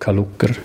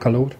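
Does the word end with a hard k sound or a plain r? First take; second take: hard k; plain r. First: The word ends with a hardened k before r. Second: The word ends with a plain vowel and r. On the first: "es gibt auch Leute, die «Kalucker» sagen" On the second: "ein paar sagen auch «Kalor»"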